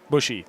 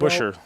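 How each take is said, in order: First: The name ends with a clear 'ee' vowel. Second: The name ends without a clear 'ee' vowel. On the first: The speaker calls it right. "There we go" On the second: The speaker calls it wrong. "Not Bush"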